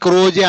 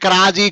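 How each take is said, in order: First: The first vowel sounds like 'oh'. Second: The first vowel sounds like 'ah'. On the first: "క్రాజీ క్రోజీ అని ఎవరు అనరు" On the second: "క్రాజీ క్రోజీ అని ఎవరు అనరు"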